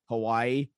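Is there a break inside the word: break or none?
none. The word is said smoothly without a break. The speaker calls it wrong. "most people just say Hawaii"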